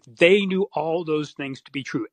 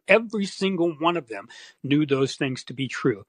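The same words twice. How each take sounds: First: "They" punched hard up front; stress on THEY. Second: "Every" hit hardest, then falling; stress on EVERY. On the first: Insisting to the host that the officials knew, stress on "They". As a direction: lean on "They", then fall away. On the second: Repeating the point to the host, stress on "Every". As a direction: drive home "Every single one". Repeats the claim with more emphasis. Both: Real, not acted.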